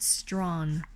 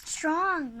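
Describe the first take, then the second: First: "strong" with a nasal o, slightly off; mispronounced strong. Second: Strong with a clear r and open o; correcting pronunciation. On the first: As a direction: say "strong" the way the learner does, a bit wrong. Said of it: "Not strong. Strong". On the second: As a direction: say "Strong" carefully, teaching the sound. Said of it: "Strong, not stone". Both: Shown as a demonstration.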